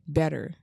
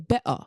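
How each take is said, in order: First: It is said in an American accent. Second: It is said in a British accent.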